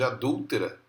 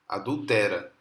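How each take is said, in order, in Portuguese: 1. A tônica está na segunda sílaba. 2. A tônica está na terceira sílaba. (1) "em vez de adúltera" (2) "Olha que absurdo"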